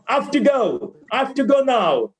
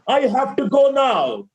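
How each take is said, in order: First: "I have to" squeezed into "af-tuh"; right way. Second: "have to" as two full separate words; wrong way. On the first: Teacher modelling the second sentence, right way. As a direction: run "have to" together as a quick "hafta". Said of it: "Second one is the right way". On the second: Teacher demonstrating the first sentence, wrong way. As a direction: sound every word in "I have to go now". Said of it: "first one is the wrong way". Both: Shown as a demonstration.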